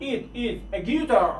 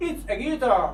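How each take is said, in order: First: It is said slowly and apart; careful full form It is; drawn out It is. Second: Said in the usual way. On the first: Shown as a demonstration. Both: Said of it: "باید شما اینها رو حتماً بدونید".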